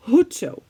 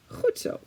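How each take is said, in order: First: Goed zo with an H instead of the g, hoed zo; Zeeland dialect. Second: Goed zo with a throaty Dutch g, xut; Dutch pronunciation. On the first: Showing how Zeeland people say goed zo. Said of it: "we say an H". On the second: Teaching viewers goed zo in Dutch. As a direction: whisper goed zo with a guttural g. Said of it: "well done is goed zo". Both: Shown as a demonstration.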